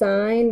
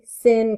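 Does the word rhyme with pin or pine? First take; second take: pine; pin. First: The vowel is long, like in pine. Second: The vowel is short, like in pin. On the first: The speaker calls it right. "This is sine" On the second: The speaker calls it wrong. "to say sin, cos, and tan makes it sound like you don't know what you're talking about"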